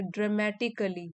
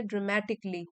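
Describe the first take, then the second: First: "ड्रामेटिकली" ending in a separate ka-lee; wrong five-syllable dramatically. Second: "ड्रामेटिकली" ending in a joined klee; correct four-syllable dramatically. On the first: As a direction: sound an extra vowel in "ड्रामेटिकली", dra-ma-ti-ka-lee. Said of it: "नहीं ऐसे नहीं बोलेंगे". ("ड्रामेटिकली" को ड्रा-मे-टि-क-ली बोलें, गलत उच्चारण) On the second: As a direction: drop the vowel in "ड्रामेटिकली", dra-ma-tik-lee. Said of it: "ऐसे नहीं बोलेंगे". ("ड्रामेटिकली" को ड्रा-मे-टिक-ली बोलें, सही उच्चारण) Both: Shown as a demonstration.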